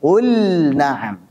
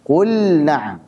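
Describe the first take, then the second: The two takes are said the same way.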